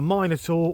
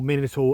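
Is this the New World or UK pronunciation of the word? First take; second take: UK; New World. First: It is said with a UK pronunciation. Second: It is said with a New World pronunciation.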